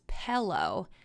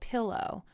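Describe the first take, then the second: First: The first vowel sounds like 'pell'. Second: The first vowel sounds like 'pill'. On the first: The speaker calls it wrong. "He always says pillow" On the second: The speaker calls it right. "it's P I L L, not P E L L"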